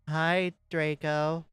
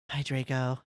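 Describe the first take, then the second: First: The greeting sounds plain and cheerful. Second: The greeting sounds low and depressed. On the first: The speaker calls it wrong. "Oh, wait, no, sorry" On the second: The speaker calls it right. "I said in a depressed voice"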